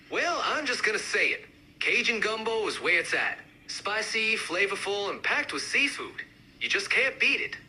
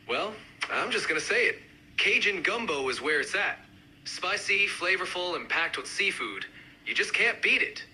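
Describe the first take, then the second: First: Higher, more pronounced Cajun accent; amped-up Cajun accent. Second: Lightly done Cajun accent. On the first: Gumbo fan speaking up, amped-up Cajun accent. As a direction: push the Cajun sound. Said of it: "really amp up the accents". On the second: Gumbo fan speaking up, mild Cajun accent. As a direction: give it a hint of Cajun. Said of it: "each accent, uh, represented by a speaker". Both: Shown as a demonstration.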